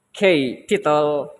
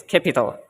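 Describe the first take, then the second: First: "capital" split as kay, pause, pital; wrongly split word. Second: Said in the usual way. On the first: Shown as a demonstration. Student showing classmates a wrong stress, "capital" split kay-pital. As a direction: say "capital" slowly with a long separate kay. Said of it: "It's not, let's say, maybe". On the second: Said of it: "but it's capital".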